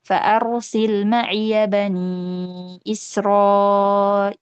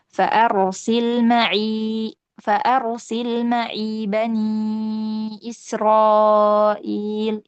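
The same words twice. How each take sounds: First: "ma'iya" with open ya, very slow chant; Hafs reading. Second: "ma'i" with silent ya, very slow chant; Shu'bah reading. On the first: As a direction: recite "ma'iya" with fatha, stretched. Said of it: "Imam Hafs". ("ma'iya" dibaca fathah, dilantunkan pelan) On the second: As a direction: stretch "Fa'arsil ma'i", ya unvoiced. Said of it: "Imam Syu'bah membaca dengan sukun". ("ma'i" dibaca sukun, dilantunkan pelan) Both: Shown as a demonstration.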